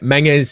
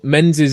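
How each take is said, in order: First: The name is given a Scottish pronunciation. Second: The name is given an English pronunciation. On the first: "the Scottish way of pronouncing it" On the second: "the anglicised way of pronouncing it"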